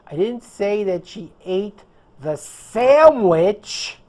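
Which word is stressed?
sandwich. The stress falls on the word sandwich. She ate something else. "I said that she ate the pizza or something else"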